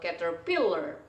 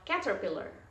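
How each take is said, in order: First: The stress is not on the first syllable. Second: The stress is on the first syllable. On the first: The speaker calls it wrong. "atau caterpillar" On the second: The speaker calls it right. "kalau ini di ca berarti bacanya adalah caterpillar"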